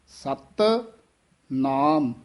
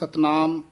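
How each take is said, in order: First: The first word is clipped and set apart. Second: The two words run together without a break. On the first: The speaker calls it right. "ਸਤ ਪਦ ਹੈ ਇਹ ਥੋੜਾ ਜਿਹਾ ਕਸ ਕੇ ਉਚਾਰਨ ਕਰਨਾ ਹੈ" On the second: The speaker calls it wrong. "ਕਈ ਇਕੱਠਾ ਹੀ ਬੋਲ ਜਾਂਦੇ ਹਨ"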